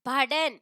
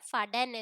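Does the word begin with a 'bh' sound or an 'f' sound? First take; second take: bh; f. First: The word begins with a 'bh' sound. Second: The word begins with an 'f' sound.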